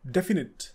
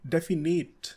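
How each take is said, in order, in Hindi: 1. आखिरी सिलेबल छोटा 'nit' है। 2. आखिरी सिलेबल लंबा 'nate' है। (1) "सही प्रोनाउंसिएशन है डेफिनेट" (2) "ना कि डेफिनेट"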